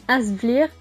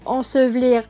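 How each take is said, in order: First: The first vowel is a nasal 'in' sound. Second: The first vowel is the nasal 'an' sound. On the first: This is the regional dialect form. "va devenir un" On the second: This is the standard French form. "Le en"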